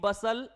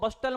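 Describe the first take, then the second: First: The word is said without a t sound. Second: The word is said with a t sound. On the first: The speaker calls it right. "टी silent है" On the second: The speaker calls it wrong. "इसको बस्टल मत बोलना भाई"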